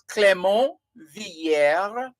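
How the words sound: The name is pronounced the French way. "If you're going with a French pronunciation"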